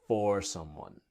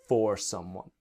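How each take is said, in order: Both takes have the same delivery.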